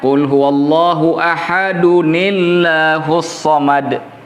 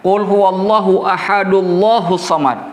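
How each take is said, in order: First: An added 'ni' sound links ahad to Allah. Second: Ahad runs into Allah with no n sound. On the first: The speaker calls it right. "nunnya dalam qiraat yang paling benar ... dipunya harakah kasrah" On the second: The speaker calls it wrong. "Kalau kita baca qul huwallahu ahadullahu samad, maka pertanyaannya kemana satu satu domahnya kemana?"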